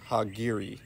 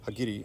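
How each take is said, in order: First: The word has an American-style pronunciation. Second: The word has a Japanese-style pronunciation.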